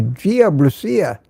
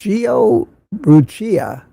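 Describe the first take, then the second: First: Said in the usual way. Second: Brucia with an Italian "ch" sound, slowly; Italian pronunciation. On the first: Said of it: "I imagine it's pronounced". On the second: Shown as a demonstration. Host guesses at a viewer's Italian name, Brucia said with "ch". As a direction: say Brucia slowly as "BROO-chee-a". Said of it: "if it's Italian, I imagine it's pronounced".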